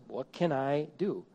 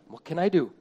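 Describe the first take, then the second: First: It is said in a helpless, defeated tone. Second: It is said in a determined, searching tone. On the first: The speaker feels nothing can be done. The speaker calls it wrong. "The blame first, blame often response says" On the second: The speaker is looking for what can be done. The speaker calls it right. "What's the blameless response? It's the same words, different emphasis"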